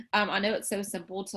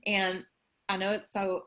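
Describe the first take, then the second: First: Said in the usual way. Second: Talking around a mouthful of food; words muffled by a bite; mouth full. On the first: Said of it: "so sorry, I have something in my mouth". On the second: Real, not acted. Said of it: "I have something in my mouth".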